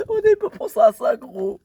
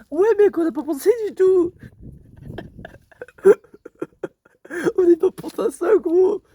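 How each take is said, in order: First: Saying it through a laugh. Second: Loud, excited realisation; excited exclaim. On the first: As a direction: laugh while you repeat it. Repeats the line while laughing. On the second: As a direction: blurt it out, all worked up. Realising their clothes will get dirty. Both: Real, not acted.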